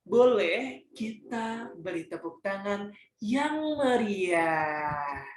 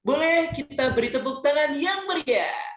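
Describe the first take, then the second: First: It is said slowly and flatly. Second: It is said fast and lively.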